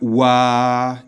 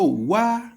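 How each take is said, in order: First: The word is said on a level middle pitch. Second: The word is said on a high pitch. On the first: "It's at the middle. It's as if a robot is speaking" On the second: "It is high"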